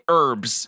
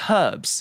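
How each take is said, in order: First: The word begins without an h sound. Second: The word begins with an h sound. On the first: The speaker calls it wrong. "Americans say herbs" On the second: The speaker calls it right. "there's a H there, sir. It's herbs"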